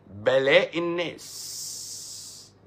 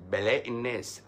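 First: "الناس" stretched very long on its final s; raised, very slow pronouncement, dragging out "الناس"; drawn-out declamation. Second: Said in the usual way. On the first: Real, not acted. Declaims, then repeats it plainly.

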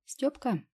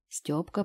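First: Higher, coaxing "Стёпка" with a falling end; butter up your brother; wheedling. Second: Said in the usual way. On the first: A narrator's reading. Sucking up to her brother at breakfast, wheedling. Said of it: "решила всё-таки подмазаться к братцу". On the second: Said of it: "narration, name said plainly".

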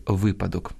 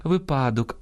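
First: Випадок stressed on the first syllable, ВИ-; correct stress. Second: Випадок stressed on the middle -ПА-; wrong stress. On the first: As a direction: hit ВИ in випадок. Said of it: "а треба казати". (наголос на першому складі: випадок) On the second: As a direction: lift ПА in випадок. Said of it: "а треба казати випадок". (наголос на другому складі: випадок) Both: Shown as a demonstration.

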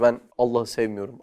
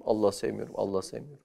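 First: Said in the usual way. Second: Imitating a stubborn denial, fading softer; sulky quiet repeat. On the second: Teacher mimics a student who claims not to love God, fading sulkily. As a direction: mutter it again and again, dying away like a pouting child. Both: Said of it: "Bir tanesi diyor işte".

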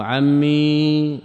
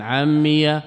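First: عمي ending in a long, held "ee"; عمي as "ammeee", no vowel after the ya; ya with sukun. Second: عمي ending in "-iya"; عمي as "ammiya"; ya with fatha. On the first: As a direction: stretch the still ya in عمي. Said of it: "بالإسكان". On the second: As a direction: open the ya of عمي into a short "a". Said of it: "بالفتح". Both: Shown as a demonstration.

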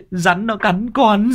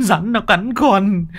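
First: High, slow drawn-out wail; wailing lad. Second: High slow wail that drops on "nó"; falling wail. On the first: Tâm wails to uncle about the bite, slow high wail. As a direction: stretch it out in pain. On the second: Tâm repeats his cry to uncle, falling wail. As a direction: sink the repeat with a falling whine. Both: Acted.

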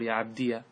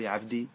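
First: "عبدي" said as ʿabdiya; ends in -diya. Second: "عبدي" with no vowel after the yā'; ends in -di. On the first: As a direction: voice the final yā' of "عبدي" with an a vowel. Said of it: "إثبات الياء وفتحها". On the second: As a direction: say "عبدي" ending in a plain -dī. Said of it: "هل تقول". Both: Shown as a demonstration.

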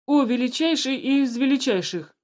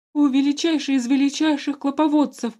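First: Loud servile address to the ruler; formal servile address. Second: High loud terrified grovelling. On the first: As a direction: step forward and bow with words. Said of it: "вышел вперёд начальник охраны". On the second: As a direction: grovel in panic before the ruler. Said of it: "с ужасом на лице заговорил". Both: A narrator's reading.

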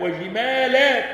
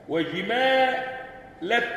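First: وجمالات higher and louder with the final alif held long; plural reading. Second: وجمالت dragged out very slowly, higher, with no long alif at the end; singular reading. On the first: Teacher reciting the plural reading, loud and stretched. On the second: Teacher reciting the singular reading, very slow. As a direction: recite وجمالت slow with a short final vowel. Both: Shown as a demonstration. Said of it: "تقرأ بالإفراد والجمع".

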